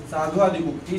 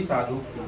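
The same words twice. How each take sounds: First: Said in the usual way. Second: साधुक्ती dropped low and soft; quiet final answer साधुक्ती; soft joined answer. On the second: Shown as a demonstration. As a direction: murmur the result साधुक्ती.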